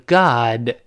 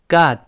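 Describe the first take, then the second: First: Said slowly with the final d released. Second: Said quickly with the final d unreleased. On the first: "慢慢读是God" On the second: "读快一些，跟我念God"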